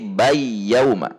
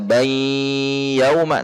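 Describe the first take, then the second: First: The n merges fully into y, no nasal hum. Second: A nasal hum is held before the y. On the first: The speaker calls it wrong. "Gunnahnya hilang dan langsung masuk" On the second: The speaker calls it right. "tidak dibaca bay yauma"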